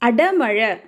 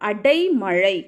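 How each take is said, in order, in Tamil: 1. இரண்டாம் அசையில் குறுகிய சாதாரண 'a' உயிர் ஒலி உள்ளது. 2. இரண்டாம் அசையில் 'ai' என்ற இரட்டை உயிர் ஒலி உள்ளது. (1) "அது அடமழை இல்லை"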